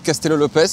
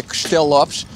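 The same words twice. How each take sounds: First: Said in the usual way. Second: "Castello Lopes" said the Portuguese way, as Kshtel Lopsh; Portuguese "Castello Lopes", unstressed vowels swallowed; Portuguese pronunciation. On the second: Shown as a demonstration. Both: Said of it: "en portugais".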